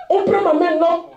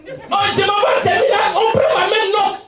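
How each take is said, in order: First: Said in the usual way. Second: Laughing shout. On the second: Retold or imitated. Telling of the exam result.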